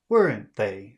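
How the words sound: It sounds confident, falling like a statement. The speaker states an opinion and expects agreement. The speaker calls it right. "say it like a statement. ... Say it like that"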